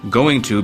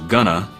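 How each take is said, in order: First: Both words are said fully and separately. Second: The words are shortened and joined into one.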